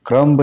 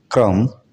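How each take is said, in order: First: क्रम्ब said krumb, b sounded; क्रम्ब with a final b; wrong b sounded. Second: क्रम्ब said krum, no b; क्रम्ब ending on m; silent b. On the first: Teacher shows the wrong क्रम्ब with a b. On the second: Teacher shows क्रम्ब said krum. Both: Shown as a demonstration. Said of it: "क्रम्ब नहीं पढ़ा जाना चाहिए".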